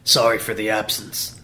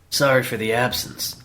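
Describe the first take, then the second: First: The voice is rough and gruff. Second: The voice is smoother and less gruff. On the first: The speaker calls it wrong. "It sounds too much like a, Fix's" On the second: The speaker calls it right. "Maybe a little less gruff"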